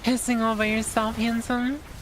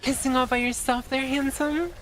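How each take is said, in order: First: The voice is pitched lower. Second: The voice is pitched higher.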